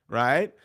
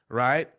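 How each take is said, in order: No difference in how they are said.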